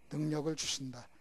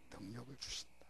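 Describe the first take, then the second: First: Firm answer. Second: Soft answer. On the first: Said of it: "선택하면 뭘 주신다?". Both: Shown as a demonstration.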